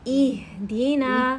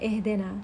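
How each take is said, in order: First: The first vowel sounds like 'ee'. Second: The first vowel sounds like 'eh'. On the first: The speaker calls it right. "कसरा की क्या आवाज़ होती है आ ई" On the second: The speaker calls it wrong. "हमें एह देना नहीं कहना"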